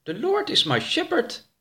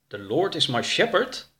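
First: High-pitched character reading out foreign words; high read-aloud with a lift. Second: Puzzled echo, lifting at the end on "shepherd"; questioning echo with "shepherd" turned upward; puzzled repeat. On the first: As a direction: read it out in a high voice, unsure of the English. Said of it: "hardop voor". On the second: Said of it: "Wat betekent dat?". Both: Acted.

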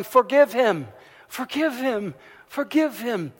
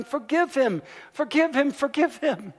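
First: Put-on loud, high chant of a crowd of kids; children shouting. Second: Even higher, louder pleading chant; kept shouting. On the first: Students shouting at the principal for mercy, loud and high. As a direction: call it out, loud and pleading. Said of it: "they started shouting". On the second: Retold or imitated. Students keep shouting at the principal to spare the boy, higher still. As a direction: cry it out over and over, rising. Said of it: "the students kept shouting".

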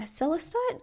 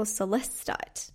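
First: "celestite" with the first syllable stressed. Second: "celestite" with the second syllable stressed. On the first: Speaker trying out a crystal's name, first-syllable stress on "celestite". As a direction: say "celestite" leaning on its opening SEL. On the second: Speaker offering another way to say it, second-syllable stress on "celestite". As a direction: say "celestite" leaning on LEST, se-LEST-ite. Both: Shown as a demonstration. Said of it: "want to put the emphasis".

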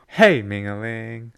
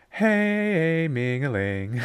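First: Corrected catchphrase, "Hey" held less long; shorter "Hey". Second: "Hey" stretched far too long; overlong "Hey". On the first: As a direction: keep "Hey" short, then lilt "Mingling". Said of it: "No, too many syllables". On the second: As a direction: drag out the vowel of "Hey". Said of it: "too many E's in that hey". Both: Shown as a demonstration.

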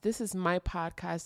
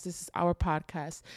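First: Said in the usual way. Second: "our" leaned on, the word that changed; stress on our. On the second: Shown as a demonstration. Host welcoming listeners, stressing "our". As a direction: land on "our" to include the listeners.

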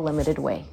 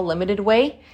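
First: Small and shrunken. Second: Said in the usual way. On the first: Shown as a demonstration. Teacher shrinking "limited way" to show a small love, lower and softer. Repeating phrase, second time shrunk.

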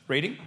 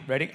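First: "Reading?" said as REE-ding, long ee, questioning rise; pronunciation guess. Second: "Reading?" said as RED-ing, short e like red, questioning rise; pronunciation guess. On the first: Pastor asks the crowd how to say the cinema name, REE-ding. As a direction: try "Reading?" with a long ee like reed. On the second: Pastor tries the other way to say the cinema name, RED-ing. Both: Shown as a demonstration. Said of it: "Does anyone know how to say it?".

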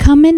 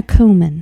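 First: Cumin said as KUH-min; pronunciation contrast. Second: Cumin said as KOO-min; pronunciation contrast. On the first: Host asking how the word is said, cumin as KUH-min. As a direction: say cumin with a short "uh" in the first syllable. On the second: Host asking how the word is said, cumin as KOO-min. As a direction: say cumin with a long "oo" in the first syllable. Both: Shown as a demonstration. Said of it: "the way she thinks cumin".

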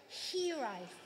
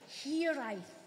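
First: Said in the usual way. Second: Hiraeth with a rolled Welsh r and a clear th ending; Welsh pronunciation. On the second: Shown as a demonstration. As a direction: say Hiraeth the Welsh way, hee-RYE-th. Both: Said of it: "I'll try and say that in my best Welsh accent".

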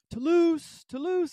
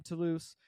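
First: High, loud call for a lost cat. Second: Said in the usual way. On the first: Retold or imitated. Searcher calling a lost cat around the neighborhood, calling out. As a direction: call the name TOULOUSE across the yards. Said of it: "I'm calling his name". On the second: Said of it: "that's his name".

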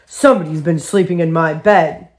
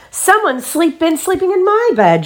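First: Low, gruff father bear; deep-voiced storybook bear complaint; Daddy Bear grumbling. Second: Very high, indignant mother bear; astonished storybook mother, high-voiced; Mommy Bear exclaiming. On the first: A narrator's reading. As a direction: grumble like an affronted big bear. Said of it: "he grumbled". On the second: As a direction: exclaim it with pitch way up. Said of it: "Mommy Bear saw the jumbled pillows".

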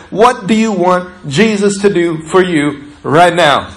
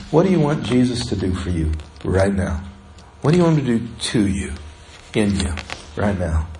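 First: Said in the usual way. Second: Much softer and lower, almost to oneself; soft inward question. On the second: Shown as a demonstration. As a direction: ask it gently, as a private prayer. Question repeated softly, inward.

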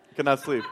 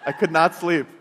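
First: Said in the usual way. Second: "could" hit hard and louder, falling at the end; emphatic, louder. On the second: Real, not acted. Dreamer woken by the alarm, stressing that sleep would not come. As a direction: lean on "could". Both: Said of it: "tried desperately to go back to sleep".

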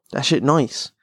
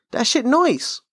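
First: Said in the usual way. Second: Squeaky high voice for the repeat; much higher mock voice on the repeat; high put-on voice. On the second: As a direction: echo your own line way up high.

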